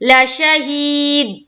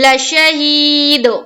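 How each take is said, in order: First: The final d stops dead with no echo. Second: The final d bounces with a double sound. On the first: The speaker calls it wrong. "ये कलकला नहीं हुआ, क्योंकि दाल के ऊपर बिल्कुल ठहराव हो जा रही है" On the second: The speaker calls it right. "ये आवाज डबल आ रही है"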